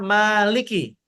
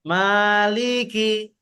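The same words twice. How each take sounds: First: The li syllable is short. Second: The li syllable is drawn out long. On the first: The speaker calls it right. "Harusnya maliki" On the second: The speaker calls it wrong. "linya dibaca panjang biasanya tuh. Seperti ada jarak"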